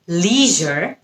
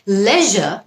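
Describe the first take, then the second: First: It is said in an American accent. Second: It is said in a British accent.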